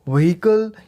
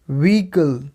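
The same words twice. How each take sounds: First: व्हीकल with an extra syllable, "ve-HI-kal"; incorrect pronunciation. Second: व्हीकल as "VEE-kul", silent h; correct pronunciation. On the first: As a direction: say व्हीकल with the h sounded. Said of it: "वो incorrect था". (व्हीकल में 'ह' बोलकर, 'वहीकल') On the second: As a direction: say व्हीकल in two syllables, no h. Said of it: "इसकी सही pronunciation होगी". (व्हीकल को 'वीकल', बिना 'ह' के) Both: Shown as a demonstration.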